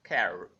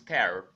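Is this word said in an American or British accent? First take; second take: American; American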